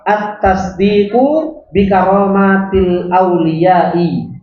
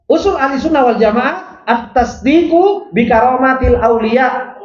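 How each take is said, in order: First: Each Arabic word drawn out very slowly; slow dictation. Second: Said in the usual way. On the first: Shown as a demonstration. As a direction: read it word by word for students to follow. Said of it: "teacher dictating the Arabic text". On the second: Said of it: "teacher repeats the same phrase".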